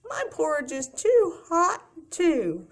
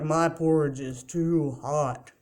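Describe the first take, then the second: First: It is said in a tiny, high voice. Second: It is said in a deep, low voice.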